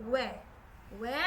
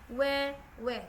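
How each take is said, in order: The two takes are said the same way.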